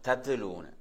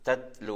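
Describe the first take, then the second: First: The first t bounces with an extra echo vowel. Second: The first t stops cleanly with no echo vowel. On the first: The speaker calls it wrong. "தத்துலூனு அப்படி சொல்றதல்ல" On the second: The speaker calls it right. "சுக்குன்ல அப்படி நின்று சொல்ல நினைச்சா"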